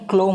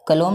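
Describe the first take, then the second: First: The k and the l form one cluster. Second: A short vowel separates the k and the l. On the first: The speaker calls it right. "क्लोम होता है actually" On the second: The speaker calls it wrong. "कलोम नहीं"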